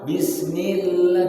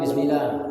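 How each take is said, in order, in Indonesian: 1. Bunyi L ditahan panjang. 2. Bunyi L dipotong pendek. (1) "agar tahan"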